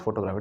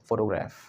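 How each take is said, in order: First: Photograph as even "photo-graaf", long a; wrong pronunciation. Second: Photograph in one flow, short "graef" ending; right pronunciation. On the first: Teacher showing students the mistake, wrong pronunciation. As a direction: say photograph as two separate words, photo and graaf. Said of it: "it's not photograph". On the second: Teacher correcting the class, flowing pronunciation. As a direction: say photograph as a single joined word. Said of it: "it's photograph". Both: Shown as a demonstration.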